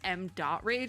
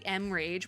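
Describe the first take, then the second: First: The name is said with the word dot. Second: The name is said without the word dot. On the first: The speaker calls it right. "is how you're supposed to pronounce it" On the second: The speaker calls it wrong. "I always say M Rage"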